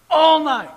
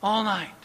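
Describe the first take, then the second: First: "All night" high and loud, leaning on "All"; emphatic repeat. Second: Said in the usual way. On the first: Real, not acted. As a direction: punch "All night" hard the second time.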